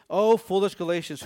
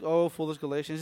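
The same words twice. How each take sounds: First: It is said in an upset, furious way. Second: It is said in a light, casual way.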